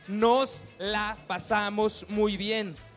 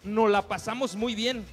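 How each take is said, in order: First: The final s of the first word is pronounced. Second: The final s of the first word is dropped. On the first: It says we had a good time. The speaker calls it right. "Es nos la pasamos muy bien" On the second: It sounds like we did not have a good time. The speaker calls it wrong. "No decimos la S al final de cada palabra"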